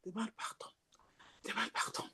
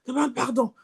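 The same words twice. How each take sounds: First: Soft unvoiced whisper of the Spirit. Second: Said in the usual way. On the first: The gentle Spirit whispers to the believer, in a whisper. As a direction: breathe it like the Spirit, barely audible. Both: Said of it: "Il fait ça".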